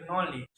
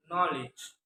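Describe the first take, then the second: First: Knowledge with a weakened final sound; learners' pronunciation. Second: Said in the usual way. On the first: Retold or imitated. Showing how learners pronounce knowledge, learners' pronunciation. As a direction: soften the last consonant of "knowledge". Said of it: "by the learners". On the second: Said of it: "is pronounced".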